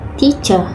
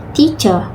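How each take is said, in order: Both takes have the same delivery.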